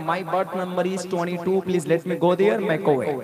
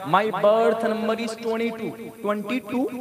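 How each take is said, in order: First: Indian English, slow and spelled out. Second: "twenty-two" swallowed in a put-on Western accent; a hint of a put-on British accent, slow; mock foreign accent. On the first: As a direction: say it slowly in plain Indian English. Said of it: "हम लोग ट्वेंटी टू बोल देते हैं". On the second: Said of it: "जब American या British accent में बोलेंगे". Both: Shown as a demonstration.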